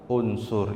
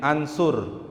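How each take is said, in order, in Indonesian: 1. Kata ini diawali dengan vokal u. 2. Kata ini diawali dengan vokal a. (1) "bacanya kita unsur" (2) "Tidak mungkin ansur"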